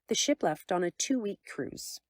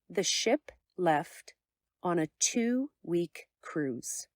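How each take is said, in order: First: It is said at a quick, casual conversational pace. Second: It is said slowly with pauses and stressed keywords. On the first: "In normal conversation, the first sentence sounds like this" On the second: "In clear speech style, it sounds like this"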